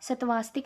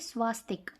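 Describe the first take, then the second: First: The word begins with the sounds 'satva'. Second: The word begins with the sounds 'swa'. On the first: The speaker calls it wrong. "सतवास्तिक नहीं" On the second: The speaker calls it right.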